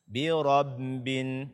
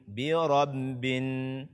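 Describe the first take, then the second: No difference in how they are said.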